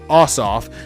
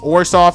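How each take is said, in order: First: The name is said without an R sound. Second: The name is said with an R sound. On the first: The speaker calls it right. "There's no R in his name" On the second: The speaker calls it wrong. "It's not Orsoff. There's no R in his name"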